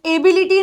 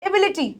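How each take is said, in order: First: "एबिलिटी" with long ay and ee vowels; wrong pronunciation. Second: "एबिलिटी" quick and soft, short vowels; correct pronunciation. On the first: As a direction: spell out "एबिलिटी" as ay-bee-lee-tee. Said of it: "नहीं बोलना". ("एबिलिटी" ग़लत, लंबे स्वरों के साथ) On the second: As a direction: say "एबिलिटी" softly as e-BI-li-ti. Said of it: "एबिलिटी नहीं बोलना". ("एबिलिटी" सही, छोटे स्वरों के साथ) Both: Shown as a demonstration.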